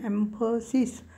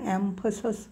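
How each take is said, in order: First: The final syllable is pronounced with a clear 'sis'. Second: The final syllable is reduced to a weak 'sus'. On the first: The speaker calls it wrong. "ॲम्फसिस असं वाटतं आपल्याला" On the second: The speaker calls it right. "पण ॲम्फसस होतं त्याचं. ॲम्फसस सिस म्हणून होत नाही"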